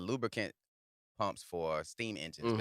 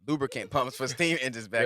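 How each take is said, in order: First: The phrase is spoken slowly with hesitation. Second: The phrase is spoken quickly and smoothly.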